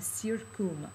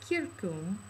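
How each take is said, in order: First: The word begins with an s sound. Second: The word begins with a k sound. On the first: The speaker calls it wrong. "I mispronounced that" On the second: The speaker calls it right. "Let me go back"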